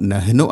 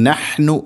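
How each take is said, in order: First: "നഹ്നു" quick, as nahinu with a weak h; mistaken light h. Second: "നഹ്നു" with a strong h from mid-throat; correct throat h. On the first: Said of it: "ആവരുത്". ("നഹ്നു" ലഘുവായ ഹ ശബ്ദത്തിൽ തെറ്റായി) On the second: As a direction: press out the h in "നഹ്നു" from the middle of the throat. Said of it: "തൊണ്ടയുടെ മധ്യഭാഗം". ("നഹ്നു" തൊണ്ടയുടെ മധ്യഭാഗത്തു നിന്ന് ഹ) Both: Shown as a demonstration.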